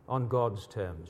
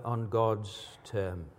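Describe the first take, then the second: First: "On God's terms" very slow, lower and soft; weighted repeat. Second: Said in the usual way. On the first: Shown as a demonstration. Preacher repeating the point, "On God's terms" slow, hushed and weighted. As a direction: let each word of "On God's terms" sink in slowly and softly.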